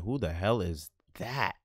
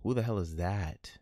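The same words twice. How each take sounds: First: Slow, drawn-out question. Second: Hushed whisper. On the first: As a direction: stretch every word of it out. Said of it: "repeats, varying delivery". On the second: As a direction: breathe the question with no voice. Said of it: "repeats in other voices". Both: Acted.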